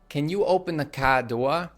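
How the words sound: It is said in a New England accent. "She'll say"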